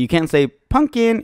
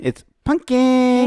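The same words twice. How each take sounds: First: Said in the usual way. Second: "pumpkin" very high and slow, cooed; cutesy baby voice. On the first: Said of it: "You have to say it in a cute way. You can't say". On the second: Shown as a demonstration. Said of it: "You have to say it in a cute way".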